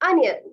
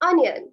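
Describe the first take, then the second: The two takes are said the same way.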